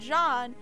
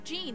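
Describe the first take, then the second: First: The name is said with French pronunciation. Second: The name is said with American English pronunciation. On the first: This is the man's name as used in France. "he's from France, so you pronounce it Jean" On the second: This is a girl's name in America. "in America, you see that, like, spelling, you pronounce it as, like, Jean"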